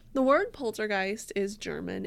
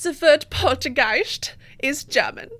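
First: It is said in her normal accent. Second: It is said in a put-on German accent.

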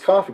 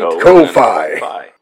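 First: It is said smoothly like the word coffee. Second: Both syllables are separated and emphasized. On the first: The speaker calls it wrong. "people are like, it's coffee" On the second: The speaker calls it right. "you have to emphasize the syllables"

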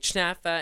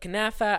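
First: It starts with a ch sound. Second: It starts with a k sound.

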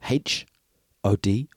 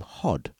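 First: The name is spelled out letter by letter. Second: The name is said as a single word. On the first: The speaker calls it right. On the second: The speaker calls it wrong.

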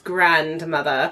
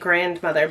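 First: It is said in a put-on British accent. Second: It is said in the speaker's ordinary accent.

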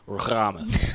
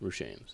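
First: The name is said in a Russian accent. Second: The name is said in a plain American accent.

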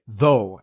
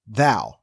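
First: The vowel rhymes with go. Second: The vowel rhymes with cow. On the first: This is the likely older pronunciation that rhymes with tro. "more likely though and tro" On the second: This is the usual modern pronunciation. "as you might expect"

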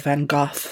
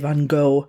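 First: The name is said with a British pronunciation. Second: The name is said with an American pronunciation. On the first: "we tend to say Van Gogh" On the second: "Americans say Van Gogh"

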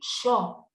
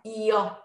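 First: The word begins with a 'sh' sound. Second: The word begins with a 'y' sound. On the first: The speaker is from Buenos Aires. "because I'm from Buenos Aires and I say sho" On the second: This is how the rest of Latin America and Spain say it. "the sh sound is not yo"

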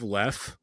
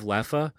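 First: The word ends on the 'f' consonant sound. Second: The word ends with an 'a' vowel sound.

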